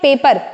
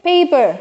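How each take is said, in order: First: The stress is on the second syllable. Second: The stress is on the first syllable.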